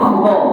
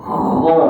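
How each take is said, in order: First: The kha is pushed out harshly and roughly. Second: The kha is pushed out softly and gently. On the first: The speaker calls it wrong. "itu kasar" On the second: The speaker calls it right. "Dia kena lembut, tolak perlahan"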